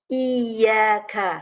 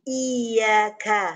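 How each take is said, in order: No difference in how they are said.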